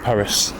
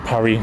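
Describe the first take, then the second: First: The final S is sounded. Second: The final S is silent. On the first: "we say Paris" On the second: "no one calls it Paris here"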